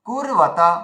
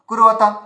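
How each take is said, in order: First: The voice holds and stops briefly after 'kur'. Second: The word is run together quickly without a break. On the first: The speaker calls it right. "এই যে কুর বলে যে আমাদের যে একটা হাওয়া থেমে থামিয়ে দিচ্ছি" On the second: The speaker calls it wrong. "এভাবে জোরে জোরে বলতে হতো, খুব স্পিডে বলতে হতো"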